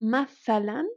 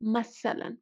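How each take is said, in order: First: The middle consonant is a 'th' sound. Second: The middle consonant is an 's' sound.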